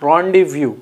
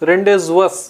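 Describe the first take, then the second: First: It is said 'raan-dee-vyoo' with no final 's'. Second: It is said letter by letter, ending in 's'. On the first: The speaker calls it right. "రాండివ్యూ అని పలకాలండి" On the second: The speaker calls it wrong. "రెండేజ్వస్ అని వస్తే that is wrong"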